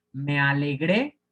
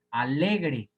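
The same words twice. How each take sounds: First: Alegré as a-le-GRÉ, rising at the end; Me alegré with a strong, lifted GRÉ; stress on last syllable. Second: Alegre as a-LE-gre, falling; stress on middle syllable. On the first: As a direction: punch the final GRÉ of alegré, slowly. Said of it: "ahí sí sería aguda". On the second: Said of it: "es grave aquí". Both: Shown as a demonstration.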